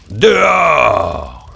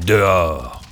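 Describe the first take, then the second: First: Loud, eerie mummy voice rising to a roar; the mummy roaring at the children to leave; mummy's roar. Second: Put-on the mummy ordering the children out; mummy's command. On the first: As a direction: bellow the final order. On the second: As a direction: growl out the first warning. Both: A narrator's reading. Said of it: "dit-elle".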